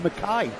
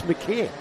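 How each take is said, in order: First: Mackay with its ending rhyming with "eye"; mispronounced surname. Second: McKay with its ending rhyming with "ear"; corrected surname. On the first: Retold or imitated. Co-commentator quoting his partner's mistake, Mackay mispronounced as "muh-KAI". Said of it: "Always says it wrong". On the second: Shown as a demonstration. Co-commentator correcting his partner on the driver's name, McKay pronounced "muh-KEER". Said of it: "He's told me yesterday it was McKay".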